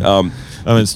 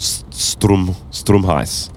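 First: The first half is confident, the second mumbled. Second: The whole name is said smoothly and clearly. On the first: The speaker calls it wrong. "You started with confidence on the Strum and then went, Hus?" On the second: The speaker calls it right. "That's exactly how you pronounce it"

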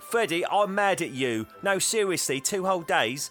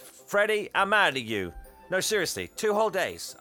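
First: It is said in a fake Cockney accent. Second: It is said in the speaker's plain voice.

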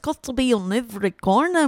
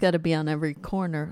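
First: It is said in a put-on Irish accent. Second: It is said in the speaker's normal accent.

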